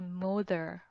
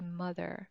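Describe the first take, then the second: First: The first vowel sounds like oh. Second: The first vowel sounds like uh. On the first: The speaker calls it wrong. "even though we are using O, we do not say mother" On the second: The speaker calls it right. "We say mother"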